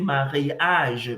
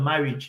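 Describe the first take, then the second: First: The word has French pronunciation with every vowel sounded. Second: The word has English pronunciation with reduced vowels. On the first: "you say mariage because all the letters, all the um, vowels, tous les voyelles en français, c'est prononcé" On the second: "Instead of marriage"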